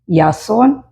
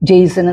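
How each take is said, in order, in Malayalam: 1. ഈ പേര് Y ശബ്ദത്തിലാണ് തുടങ്ങുന്നത്. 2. ഈ പേര് J ശബ്ദത്തിലാണ് തുടങ്ങുന്നത്. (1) "J A stands for that Ya sound" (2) "You can read it as Jason also"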